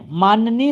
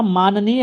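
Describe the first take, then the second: First: माननीय with an added y, maan-ya-neey; wrong form demonstrated. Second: माननीय as maa-na-neey, no extra y; correct form demonstrated. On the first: Teacher shows the rejected word, demonstrating an error. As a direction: slip a y glide into माननीय. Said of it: "नहीं होता". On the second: Teacher gives the right word, correcting. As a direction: sound माननीय with a clean middle "na". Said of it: "होता है". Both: Shown as a demonstration.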